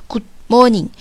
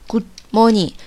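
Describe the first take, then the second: No difference in how they are said.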